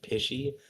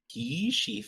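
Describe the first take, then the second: First: The first vowel is a short I sound. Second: The first vowel is a long E sound. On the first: The speaker calls it wrong. "rather than pishy" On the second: The speaker calls it right. "pea with a like a long E"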